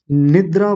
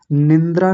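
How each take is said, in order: First: निद्रा with no nasal, short i straight into dra; correct निद्रा. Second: निंद्रा with an added nasal n before the d; mispronounced निंद्रा. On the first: Teacher giving students the right word, निद्रा without nasal n. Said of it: "निद्रा बोलेंगे". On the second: Teacher showing what not to say, निंद्रा with a wrong nasal n. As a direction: slip an extra n into निंद्रा. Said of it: "निंद्रा नहीं कहेंगे". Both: Shown as a demonstration.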